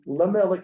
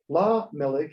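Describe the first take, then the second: First: The first vowel is a short schwa. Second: The first vowel is a longer a. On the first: It means to a king. "than a schwa" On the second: It means to the king. "a longer a sound"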